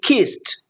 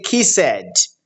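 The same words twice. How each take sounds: First: The ending is pronounced as a T sound. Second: The ending is not pronounced as a T sound. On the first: The speaker calls it right. "the ed is pronounced as T" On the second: The speaker calls it wrong. "we don't say kissed"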